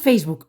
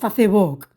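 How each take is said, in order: First: It is pronounced the usual English-like way. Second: It is pronounced as Spanish spelling reads. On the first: This is how people say it. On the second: Nobody says it this way. "¿a que no decimos"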